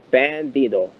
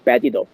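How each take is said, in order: First: "Bandito" drawn out slowly, each syllable clear; real slowly. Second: Said in the usual way. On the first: Shown as a demonstration. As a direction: stretch "Bandito" out, over-enunciated. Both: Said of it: "say it, uh, real slowly".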